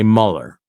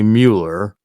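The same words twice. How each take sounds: First: The name is said with an English pronunciation. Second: The name is said with a German pronunciation. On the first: "They want to say Mueller" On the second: "they don't want to say Mueller"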